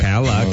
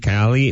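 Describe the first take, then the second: First: The second vowel is an uh sound. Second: The second vowel is an ee sound. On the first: The speaker calls it right. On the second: The speaker calls it wrong. "not E, Cali, no"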